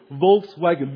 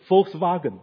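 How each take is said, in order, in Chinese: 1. W 读成英语的 w 音。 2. W 读成 v 音。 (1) "我们说Volkswagen" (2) "其实德国人说什么？他们是Volkswagen"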